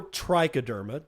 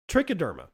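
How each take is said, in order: First: Trichoderma with a long "try" at the start; alternative pronunciation. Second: Trichoderma with a short "trick" at the start; first pronunciation variant. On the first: Gardening teacher offering the other way to say it, trichoderma said TRY-kuh-derma. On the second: Gardening teacher naming a fungal player, Trichoderma said TRICK-uh-derma. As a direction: say Trichoderma as TRICK-uh-DER-muh. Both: Shown as a demonstration. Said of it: "depending on how you wanna pronounce it".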